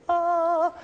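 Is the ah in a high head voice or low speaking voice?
head voice. A high vowel in a light head voice. "une voix aiguë de tête c'est ah"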